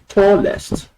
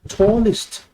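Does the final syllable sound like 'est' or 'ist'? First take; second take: est; ist. First: The ending is said with an 'e' vowel. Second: The ending is said with an 'i' vowel. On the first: The speaker calls it wrong. "this word is not tallest, as people call it" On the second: The speaker calls it right. "It is tallest"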